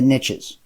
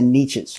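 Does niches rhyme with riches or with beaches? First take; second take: riches; beaches. First: Niches is said to rhyme with riches. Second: Niches is said to rhyme with beaches.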